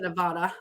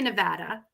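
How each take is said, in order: First: The word is said casually, without careful articulation. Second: The word is said with careful, crisp articulation. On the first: The speaker calls it wrong. "I don't say Nevada" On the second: The speaker calls it right. "I say Nevada"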